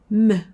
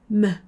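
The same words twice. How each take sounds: No difference in how they are said.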